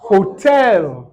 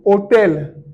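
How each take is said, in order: First: The initial h is pronounced. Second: The initial h is silent. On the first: "Eux vont dire hotel" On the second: "Nous, on va dire hôtel"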